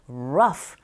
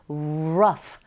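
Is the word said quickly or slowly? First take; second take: quickly; slowly. First: It is said quickly and naturally, lips moving fast. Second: It is said slowly with rounded lips at the start. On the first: This is how it sounds in real speech. "말할 때는 자연스럽게 빨리 입을 움직이시면 되고요" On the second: This is the careful way to practice. "입모양을 동그랗게 한 상태에서 우로 시작한다고 기억하시고 발음하면 됩니다"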